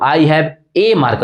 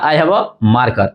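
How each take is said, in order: First: Slow, "a" said fully as "ay"; strong form a. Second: Slow, "a" reduced to a short unstressed "uh"; weak form a. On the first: Teacher shows students the stressed strong "a", said as ay. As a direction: give "a" its full strong "ay" sound to stress only one marker. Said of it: "ए, ए क्यों बोल रहा हूं". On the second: Teacher shows students how conversation says a as uh. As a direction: let "a" slip by as a weak "uh" before marker. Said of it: "तो बताइए अ मैंने बोला". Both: Shown as a demonstration.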